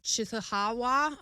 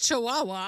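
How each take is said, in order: First: The name is said garbled, with odd middle sounds. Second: The name is said clearly as chee-WAH-wah. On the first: The speaker calls it wrong. "which I'm going to butcher right now" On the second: The speaker calls it right. "It's Chihuahua"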